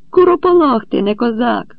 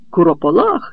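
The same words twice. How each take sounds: First: Much higher, loud furious yell; shouted insult. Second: Echoed insult. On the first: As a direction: scream the insult in his face. (лютий вигук у сварці) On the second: Echoed insult before fighting. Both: A narrator's reading.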